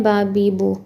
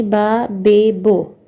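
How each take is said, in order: First: बा, बी, बू as baa, bee, boo; pure ee and oo in बी, बू; Arabic and Urdu vowels. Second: बा, बे, बो as baa, bay, boh; Persian vowels. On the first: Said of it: "sounds एक ही जैसे होती हैं". (बा, बी, बू, उर्दू-अरबी आवाज़ें) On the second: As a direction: open बी and बू into बे and बो. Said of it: "मगर फ़ारसी में ये साउंड होंगी". (बा, बे, बो, फ़ारसी मजहूल आवाज़ें) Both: Shown as a demonstration.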